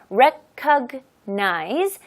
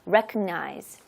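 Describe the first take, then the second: First: The word is said slowly and carefully. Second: The word is said quickly and run together.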